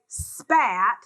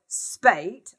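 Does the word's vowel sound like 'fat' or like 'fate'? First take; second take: fat; fate. First: The vowel sounds like the one in 'fat'. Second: The vowel sounds like the one in 'fate'. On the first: "spat, which is a fight" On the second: "I had to pronounce it spate, just to keep the rhyme"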